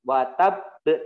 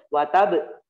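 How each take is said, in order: First: The final b is released with a bouncing echo. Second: The final b stops without any bouncing echo. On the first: The speaker calls it right. "watab baru dimantulkan" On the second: The speaker calls it wrong. "tidak boleh"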